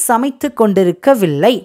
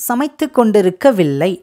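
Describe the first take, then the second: The two takes are said the same way.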